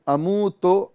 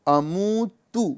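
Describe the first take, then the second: First: The final vowel sounds like o. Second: Both the middle and final vowels sound like u. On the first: This is the Urdu way of saying it. The speaker calls it wrong. "अमू तो नहीं पढ़ना है" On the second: This is the Arabic way of saying it. The speaker calls it right. "बल्कि अमू तू"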